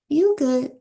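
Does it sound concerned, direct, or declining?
declining. It is said as a relaxed, polite refusal. No thanks, that's okay. "that's okay"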